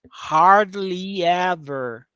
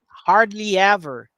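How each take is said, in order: First: The phrase is said slowly and drawn out. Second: The phrase is said quickly and compactly. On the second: "Agora rápido"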